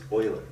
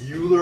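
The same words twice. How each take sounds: First: The first syllable sounds like 'oy'. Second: The first syllable sounds like 'you'. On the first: The speaker calls it right. "it's pronounced Euler" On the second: The speaker calls it wrong. "Wrong pronunciation"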